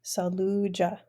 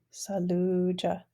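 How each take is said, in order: First: Said in the usual way. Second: Saluja said slowly, the long u in sa-lu-ja drawn out; teacher's slow model of Saluja; slow repeat. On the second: Shown as a demonstration. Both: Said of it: "our long vowel U word".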